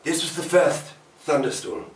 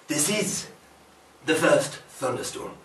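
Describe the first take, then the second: First: Said in the usual way. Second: "is" set apart, with a pause after it; stress on "is". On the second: Acted. Correcting the memory to the present, deliberate stress on "is". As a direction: land deliberately on "is", pause, then finish.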